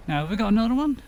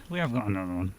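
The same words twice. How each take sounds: First: "have we got another one" asked in a sudden much higher voice. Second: Said in the usual way. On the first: Real, not acted. Streamer checking his inventory, blurting it out in a high voice. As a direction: pop the question up high, unplanned. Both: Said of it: "I said that in a high voice".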